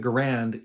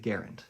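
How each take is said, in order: First: The name does not rhyme with errand. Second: The name rhymes with errand. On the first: This is the common, widely accepted form. The speaker calls it wrong. "why would you call it the Garand" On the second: This is how the inventor's family says it. The speaker calls it right. "if his name was in fact the Garand? ... It rhymes with errand"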